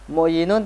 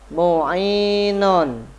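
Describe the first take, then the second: First: A 'y' sound is heard in the middle. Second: No 'y' sound is heard in the middle. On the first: The speaker calls it wrong. "Mu'yinun tidak boleh" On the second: The speaker calls it right. "maka harus dibaca mu'inun"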